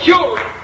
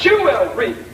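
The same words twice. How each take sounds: First: The word is said quickly as one unit. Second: The word is said slowly with its parts separated.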